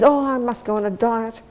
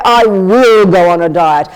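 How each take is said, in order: First: Softer, noncommittal musing on "must"; idle sigh of a wish; half-hearted wish. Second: Louder and slow, leaning on "will"; "will" said with decisive, slow weight; firm resolve. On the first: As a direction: say it like you never mean to do it. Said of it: "You can say for twenty-seven years". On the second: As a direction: state it like an unbreakable vow. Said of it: "one day you will say". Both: Shown as a demonstration.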